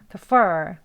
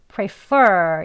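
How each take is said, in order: First: The word is said quickly with a weak first syllable. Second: The word is said slowly with a full first syllable. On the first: "대화 속에서 빨리 발음하면요" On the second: "천천히 발음하시면 prefer 이라고 발음해야 되겠죠"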